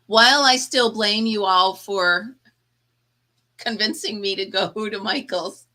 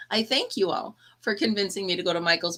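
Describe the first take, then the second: First: Laughing mock blame. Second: Said in the usual way. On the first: Jokingly blames viewers, then thanks.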